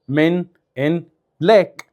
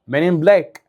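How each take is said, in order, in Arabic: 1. كل كلمة تُنطق لوحدها وبوضوح. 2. الكلمات تتلزق ببعض وتطلع مقطع واحد مترابط. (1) "فاحنا ما بنقولهاش كده" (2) "بنقول ايه؟"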